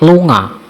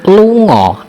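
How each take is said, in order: First: The final vowel sounds like 'ah'. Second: The final vowel sounds like 'oh'.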